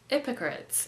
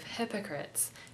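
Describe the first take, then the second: First: The word starts without an h sound. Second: The word starts with an h sound.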